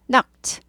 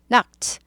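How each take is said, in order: The two takes are said the same way.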